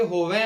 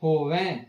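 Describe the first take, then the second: First: Said in the usual way. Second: ਹੋਵੈ closing on a nasalised ai; nasal ending. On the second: Shown as a demonstration. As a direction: end ਹੋਵੈ through the nose, as with a bindi. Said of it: "ਅਸੀਂ ਇਸ ਨੂੰ ਬਿੰਦੀ ਨਾਲ ਪੜ੍ਹਨਾ ਹੈ".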